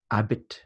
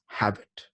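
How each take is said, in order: First: Habit with the h silent; French-style pronunciation. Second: Habit with the h sounded; English pronunciation. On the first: Teacher tracing the word into French, habit said without its h. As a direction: drop the h, say habit as "abit". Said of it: "Then it became French to". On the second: Teacher tracing the word into English, habit said with its h. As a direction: start habit on an audible English h. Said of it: "in Middle English, it became". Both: Shown as a demonstration.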